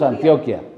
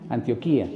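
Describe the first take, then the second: First: The stress falls on the 'o' in the middle. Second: The stress falls on the 'í' near the end. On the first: This is the local Spanish adapted form. "nosotros lo hispanizamos" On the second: This is the form used in the biblical texts. "en los textos bíblicos siempre tiene tilde"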